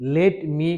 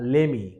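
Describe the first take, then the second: First: Both words are said fully and separately. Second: The two words blend into one short word. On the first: The speaker calls it wrong. "লেট মি কেউ বলে না" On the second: The speaker calls it right. "এটাকে এখন লেমি বলা হয়"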